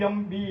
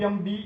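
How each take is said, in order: Both takes have the same delivery.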